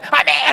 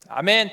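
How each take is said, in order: First: The amen is said loudly and strongly. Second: The amen is said at moderate loudness.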